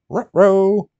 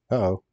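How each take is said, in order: First: Dog-like Scooby-Doo uh-oh, with rolled r's on ruh-roh; the cartoon dog's ruh-roh. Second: Said in the usual way. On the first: Streamer loses a piece, goes Scooby-Doo. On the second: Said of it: "Ruh-roh".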